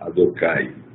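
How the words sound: Said in Sephardi pronunciation, ending in 'ai'. "Então existe a pronúncia sefaradi"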